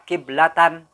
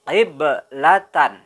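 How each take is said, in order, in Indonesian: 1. Bunyi b berhenti datar tanpa pantulan. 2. Bunyi b dilepaskan dengan pantulan. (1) "Jangan membaca kiblatan, salah" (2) "harus membaca dengan memantulkan huruf ba"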